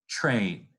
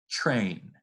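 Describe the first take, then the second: No difference in how they are said.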